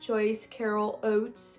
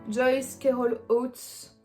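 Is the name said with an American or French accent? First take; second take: American; French. First: The name is said with an American accent. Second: The name is said with a French accent.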